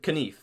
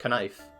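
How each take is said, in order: First: The vowel is the older, pre-shift sound. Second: The vowel is the modern, shifted sound. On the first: This is how the word sounded long ago. "I said Knief, not knife. Oh yeah, the vowel shift" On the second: This is how the word sounds today. "not knife"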